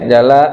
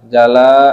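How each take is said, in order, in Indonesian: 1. Vokal setelah L dibaca pendek. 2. Vokal setelah L dibaca panjang. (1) "huna di sini dibacanya pendek" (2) "dan dipanjangkan, dibaca panjang lamnya"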